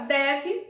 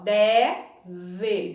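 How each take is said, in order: First: Said in the usual way. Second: "Deve" split, long open DÉ, then closed VE. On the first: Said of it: "E na palavra". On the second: Shown as a demonstration. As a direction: separate "Deve" to contrast the two E sounds. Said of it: "o primeiro E é aberto".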